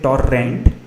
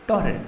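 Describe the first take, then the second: First: The R sound is hard and strong. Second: The R sound is soft and light. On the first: The speaker calls it wrong. "Don't say torrent" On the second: The speaker calls it right. "But make the R a bit soft"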